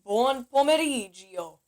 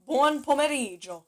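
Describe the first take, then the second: First: Buon pomeriggio dragged out slowly, gio said as a separate syllable gi-o; wrong pronunciation. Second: Buon pomeriggio with gio said as one sound like Joe; correct pronunciation. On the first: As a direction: show the tempting mistake in Buon pomeriggio. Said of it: "people are so tempted to go". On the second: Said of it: "But try to say". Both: Shown as a demonstration.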